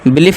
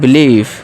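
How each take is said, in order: First: The vowel is said short. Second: The vowel is drawn out long. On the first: The speaker calls it wrong. "बिलीफ नहीं" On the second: The speaker calls it right. "Long ई"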